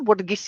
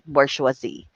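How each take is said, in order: First: It is said short, with two syllables. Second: It is said longer, with three syllables. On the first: This is the familiar local way of saying it. The speaker calls it wrong. "Ganun natin siya tinatawag even before" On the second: This is the original French way of saying it. The speaker calls it right. "the pronunciation of this is bourgeoisie. That is right"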